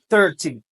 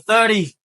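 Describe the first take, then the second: First: The middle consonant sounds like a t. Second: The middle consonant sounds like a d. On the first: "Ou bien capable de dire thirty" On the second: "prononcer tant coup D"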